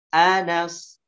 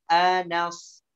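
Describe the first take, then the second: No difference in how they are said.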